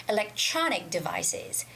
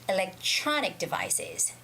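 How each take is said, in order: The two takes are said the same way.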